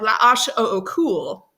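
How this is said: The letters are named with French letter sounds. "if you speak French, you know that the letters sound different"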